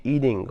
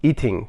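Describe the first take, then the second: First: "eating" with the t tapped like a soft d; American flapped t in "eating"; American pronunciation. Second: "eating" with a clear hard t; fully sounded t in "eating", no tap; non-native pronunciation. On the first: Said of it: "تلفظ لهجهٔ امریکایی". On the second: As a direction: say "eating" as second-language speakers do, "ee-ting". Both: Shown as a demonstration.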